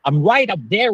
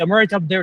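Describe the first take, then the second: First: It is spoken with the jaw dropped wide open. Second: It is spoken with the mouth barely opened. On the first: The speaker calls it right. "بقك كده يتفتح قوي" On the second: The speaker calls it wrong. "يعني مش I'm right up there"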